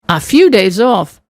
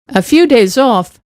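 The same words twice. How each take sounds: Both takes have the same delivery.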